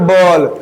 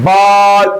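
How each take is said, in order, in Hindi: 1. स्वर लंबी 'aa' ध्वनि नहीं है। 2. स्वर एक लंबी खुली 'aa' ध्वनि है। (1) "नॉट" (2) "आल का प्रयोग हुआ है"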